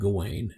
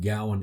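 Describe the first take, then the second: First: The name sounds like Gawain. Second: The name sounds like Gowan. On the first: This is the modern English form. "with my American Southern English, I go with Gawain, and the way it appears in modern English" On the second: This is the correct form. "I believe Gowan is correct"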